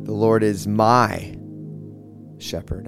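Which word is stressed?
my. The stress is on the word my.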